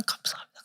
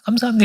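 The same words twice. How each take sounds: First: A breathless whispered 감사합니다; whispered thanks. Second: Lifted thanks. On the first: Missionary thanking God in his hospital bed, whispering. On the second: Missionary thanking God in his hospital bed, raised and glad. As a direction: lift 감사합니다 up high as a glad cry. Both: Retold or imitated. Grateful prayer, repeated thanks.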